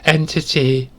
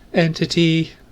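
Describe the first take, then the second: First: The word is said with a hissing voice. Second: The word is said in a flat monotone. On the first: "it's more of a hiss" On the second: "with a monotone"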